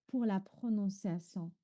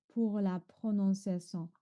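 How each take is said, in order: No difference in how they are said.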